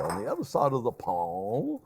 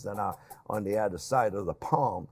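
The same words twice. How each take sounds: First: Mock-posh, lofty and a little lower; hammed-up highbrow reading of "the other side of the pond"; pompous. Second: Said in the usual way. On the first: Shown as a demonstration. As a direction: put on airs like a stuffy Englishman for a joke. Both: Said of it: "I sound very, uh, pompous".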